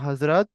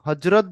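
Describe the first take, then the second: First: The middle consonant is a 'z' sound. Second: The middle consonant is a 'j' sound. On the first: The speaker calls it right. "এটার উচ্চারণ হজরত" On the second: The speaker calls it wrong. "হজরত বললে ভুল"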